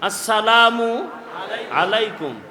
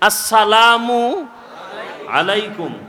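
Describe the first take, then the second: Both takes have the same delivery.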